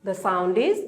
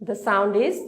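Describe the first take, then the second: Both takes have the same delivery.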